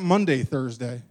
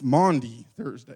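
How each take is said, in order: First: The first word sounds like 'Monday'. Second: The first word sounds like 'Mawndy'. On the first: The speaker calls it wrong. "It's not Monday Thursday" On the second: The speaker calls it right. "It's Maundy Thursday"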